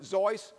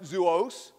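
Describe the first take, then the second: First: Zois as a single syllable; one pronunciation. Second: Zuos with an oo after the Z; other pronunciation. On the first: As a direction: say Zois to rhyme with voice. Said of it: "Some pronounced it". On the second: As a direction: say Zuos slowly, starting like zoo. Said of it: "some pronounce it". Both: Shown as a demonstration.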